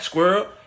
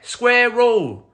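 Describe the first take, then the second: First: The word is said with an American accent. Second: The word is said with a British accent. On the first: The speaker calls it wrong. "It's not squirrel" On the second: The speaker calls it right. "pronouncing words the proper way"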